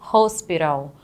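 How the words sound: It is pronounced with English sounds. "em inglês eu pronuncio hospital"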